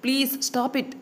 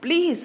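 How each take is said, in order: First: Said in the usual way. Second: Please, leaping high and louder, falling; begging please. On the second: A narrator's reading. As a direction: plead the second please desperately. (please ని బాగా పైకి వేడుకుంటూ)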